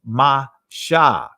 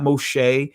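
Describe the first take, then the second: First: The name is said as Mashah. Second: The name is said as Moshe. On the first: The speaker calls it right. "it's Mashah" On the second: The speaker calls it wrong. "It's not Moshe"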